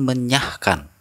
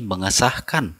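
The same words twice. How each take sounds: First: "menyahkan" with s melted into ny; "menyahkan" without any s at the root; incorrect form. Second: "mengesahkan" with menge before sah; "mengesahkan" with the s intact; correct form. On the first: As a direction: say "menyahkan" as me-nyah-kan. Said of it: "bukan menyahkan". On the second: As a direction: say "mengesahkan" as me-nge-sah-kan. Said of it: "kata bentukan yang benar adalah mengesahkan". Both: Shown as a demonstration.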